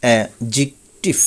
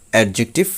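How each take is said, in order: First: অ্যাডজেক্টিভ slowly split as "ae-jik-tiv"; corrected pronunciation. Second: অ্যাডজেক্টিভ with the d sounded, "ed-jiktiv"; common mispronunciation. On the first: Teacher correcting learners, slow অ্যাডজেক্টিভ as "ae-jik-tiv". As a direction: say অ্যাডজেক্টিভ syllable by syllable, without the d. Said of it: "সঠিক উচ্চারণ হবে". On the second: Teacher showing the common way, অ্যাডজেক্টিভ as "ad-jiktiv". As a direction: say অ্যাডজেক্টিভ run together as "ad-jiktiv". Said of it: "আমরা বলে থাকি". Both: Shown as a demonstration.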